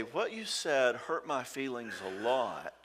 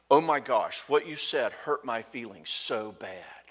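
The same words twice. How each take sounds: First: Slow, gentle "What you said hurt my feelings a lot"; softly owning it. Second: Louder "Oh my gosh" with "so bad" laying the blame; blaming complaint. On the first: Shown as a demonstration. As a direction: say it softly and take ownership. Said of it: "softly with him". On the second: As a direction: accuse the husband of hurting her. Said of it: "do you hear the blame".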